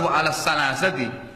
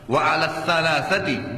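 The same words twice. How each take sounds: First: The consonant is a plain s sound. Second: The consonant is a breathy th sound. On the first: The speaker calls it wrong. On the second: The speaker calls it right. "anginnya dikeluarkan, lidah ditekan di atas"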